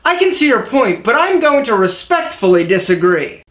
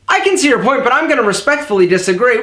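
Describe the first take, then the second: First: The sentence is spoken clearly at a steady pace. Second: The sentence is rushed out very quickly. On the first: The speaker calls it right. "Check it out" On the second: The speaker calls it wrong. "Whoa, slow down, jockey. There's no race"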